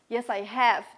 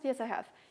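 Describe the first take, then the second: First: The word have is full and strong. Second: The word have is reduced and weak. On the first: The speaker calls it right. "the pronunciation of have and has should be strong" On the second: The speaker calls it wrong. "It's not"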